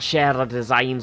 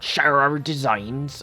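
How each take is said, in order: First: It is spoken in a Scottish accent. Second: It is spoken in a rural farmer accent. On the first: The speaker calls it right. "I can't get back into the Scottish accent now" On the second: The speaker calls it wrong. "I'm stuck in in the farmer voice"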